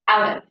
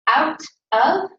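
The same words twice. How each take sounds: First: The two words run together as one. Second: The two words are said separately.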